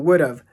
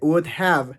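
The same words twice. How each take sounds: First: Have is reduced and joined to would. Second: Have is said fully, as a separate word. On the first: "lo pronuncié como would have" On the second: "No pronuncié would have"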